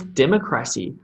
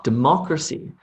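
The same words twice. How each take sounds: First: "democracy" said wrongly as dem-o-CRA-cy; stress on CRA. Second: "democracy" said correctly as de-MO-cra-cy; stress on MO. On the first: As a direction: misplace the weight onto "cra" in "democracy". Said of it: "the word sounds wrong". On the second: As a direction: land on "mo" in "democracy", the second syllable. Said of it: "I'm putting emphasis there". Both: Shown as a demonstration.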